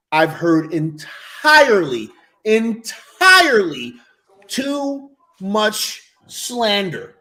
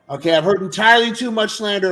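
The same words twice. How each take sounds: First: Very slow, drawn-out ENTIRELY; grandly drawn out, word by word; slow emphatic declaration. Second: Said in the usual way. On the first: Real, not acted. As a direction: stretch each word for dramatic weight. Emphatic declaration, repeated more casually after.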